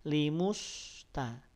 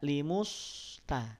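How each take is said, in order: First: The lips stay rounded through the s sound. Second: The same.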